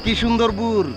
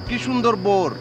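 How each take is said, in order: First: The last word has an 'oo' vowel sound. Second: The last word has an 'o' vowel sound. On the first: The speaker calls it wrong. "ভুল করে আলছি" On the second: The speaker calls it right. "শুদ্ধ করে হবে বোর"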